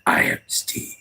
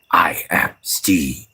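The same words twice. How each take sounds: First: Much lower, voiceless whisper; deeper whisper. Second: Voiceless whisper of the name line. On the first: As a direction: drop it way down and whisper it. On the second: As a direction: hush it to a whisper. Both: Shown as a demonstration. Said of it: "in this case, it'd be more like".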